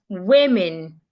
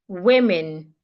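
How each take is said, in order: Both takes have the same delivery.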